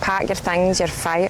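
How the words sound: It is said in a Glasgow accent. "Do it in a Glasgow accent"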